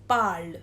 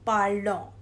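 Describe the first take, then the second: First: The word ends without any sounded final syllable. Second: The word ends with an extra sounded nasal syllable. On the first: The speaker calls it right. "we will pronounce it as parle" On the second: The speaker calls it wrong. "not parlons"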